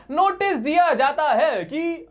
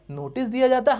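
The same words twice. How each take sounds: First: Slow, high, stretched recital; drawn-out formula. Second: Said in the usual way. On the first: Shown as a demonstration. Teacher translates the stock line for class, drawn-out formula. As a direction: recite it slowly, pitched well up.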